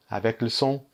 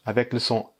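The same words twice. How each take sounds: The two takes are said the same way.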